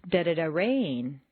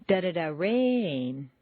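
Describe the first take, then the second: Both takes have the same delivery.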